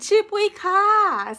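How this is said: The ending particle sounds light and playful. "If I want to be playful"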